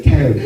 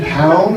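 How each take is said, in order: First: "Town." flat with a falling tune, laughing; falling try. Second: "Town?" as an unsure rising try, laughing; questioning try. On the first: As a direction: land "Town." firmly down. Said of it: "And like". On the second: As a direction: ask "Town?" with a rising tune. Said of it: "you're like". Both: Shown as a demonstration.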